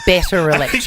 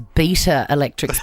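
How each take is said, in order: First: The first word is said like 'better'. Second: The first word is said like 'beta'. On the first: The speaker calls it right. "because it's Better Electrics" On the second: The speaker calls it wrong. "I hope you didn't refer to it as Beta Electrics"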